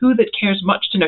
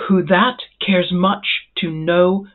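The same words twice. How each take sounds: First: The stress falls on the word who. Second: The stress falls on the word that. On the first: The speaker calls it wrong. "you already start tripping over the words" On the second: The speaker calls it right. "putting the iambic stress on the second word"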